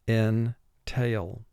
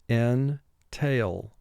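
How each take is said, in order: No difference in how they are said.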